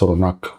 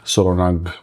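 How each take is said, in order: First: The name ends with a K sound. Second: The name ends with a G sound. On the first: The speaker calls it right. "it's Solonag with C" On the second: The speaker calls it wrong. "I always say it wrong here, Solonag with G at the end"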